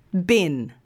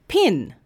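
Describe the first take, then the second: First: "bin" with B, no puff; voiced B demo. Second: "Pin" with a puffed P; isolated "Pin", air released on the P; unvoiced P demo. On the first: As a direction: start "bin" with the throat vibrating. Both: Shown as a demonstration. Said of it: "comparing the sounds in these".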